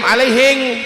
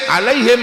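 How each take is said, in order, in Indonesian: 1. Kata ini berakhir dengan bunyi ng. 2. Kata ini berakhir dengan bunyi m.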